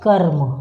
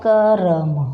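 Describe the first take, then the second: First: The r follows k with no vowel. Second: A full vowel sounds between k and r. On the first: The speaker calls it right. "इसका असली सही शब्द क्या है? कर्म" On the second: The speaker calls it wrong. "ये लिखा है करम"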